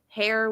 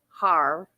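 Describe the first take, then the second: First: The vowel is an open 'air' sound. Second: The vowel is a closed 'ar' sound.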